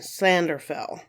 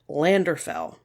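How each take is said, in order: First: The name begins with an S-like sound. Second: The name begins with a plain L sound. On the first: The speaker calls it right. "double L's in Welsh have almost an S sound to them" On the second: The speaker calls it wrong. "It looks like it's pronounced Landrillo and Landerfell"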